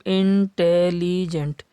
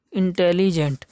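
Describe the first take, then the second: First: इंटेलिजेंट drawn out slowly in parts; syllable split. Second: Said in the usual way. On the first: Shown as a demonstration. (इंटेलिजेंट को भागों में तोड़कर धीरे बोलना) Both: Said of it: "कितने भागों में तोड़ा है".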